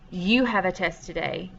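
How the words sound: The voice falls at the end, a statement.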